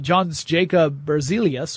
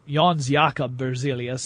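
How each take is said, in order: First: The name is said with English sounds. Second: The name is said with Swedish sounds. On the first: The speaker calls it wrong. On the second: The speaker calls it right.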